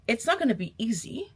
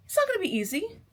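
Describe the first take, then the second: First: Said in the usual way. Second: "It's not gonna be easy." much higher, with the "not" lifted hard; emphatic repeat. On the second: Shown as a demonstration. Warning viewers again, pitched up high and insistent. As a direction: push the repeat up high to drive it home.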